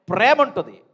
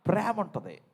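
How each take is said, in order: First: ప్రేమ ఉంటుంది shouted out much louder; preacher loudly modelling the reply; loud call. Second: Said in the usual way. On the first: Shown as a demonstration. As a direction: belt out the answer for the crowd. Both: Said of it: "గట్టిగా చెప్పాలి మీరు".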